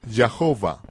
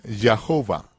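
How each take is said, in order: Both takes have the same delivery.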